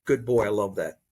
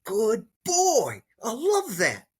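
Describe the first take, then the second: First: Put-on lower, dull "Good boy. I love that." with no feeling behind it; just mouth the syllables, no emotion; perfunctory, emotionless praise; empty praise. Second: Put-on higher, bright-hearted "Good boy. I love that." said with real joy; heartfelt, happy praise to the dog; genuine praise. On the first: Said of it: "This is not praise". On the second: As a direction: lift it with genuine delight for the dog. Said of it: "So this is praise". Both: Shown as a demonstration.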